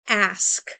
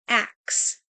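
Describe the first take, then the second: First: The word ends with an s then k sound. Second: The word ends with a k then s sound. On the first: This is the standard English form. "in proper English, we might say the word ask" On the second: "rather than saying ask, they might say ax"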